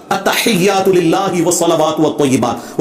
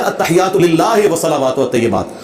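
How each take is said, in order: First: Slow, careful "लिल्लाहि" with a clear I ending; maruf Arabic recitation. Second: "लिल्लाहि" said lillahe, "वत्तय्यिबात" as watteyebat; majhul recitation. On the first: Shown as a demonstration. Showing proper prayer recitation, slow "लिल्लाहि" ending in pure I. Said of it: "नमाज भी मारूफ तरीके से नहीं". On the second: Retold or imitated. Imitating a rival scholar's prayer, "लिल्लाहि" as lillahe. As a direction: flatten the I vowels to E, as in "लिल्लाहि" lillahe. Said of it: "वो पढ़ेगा".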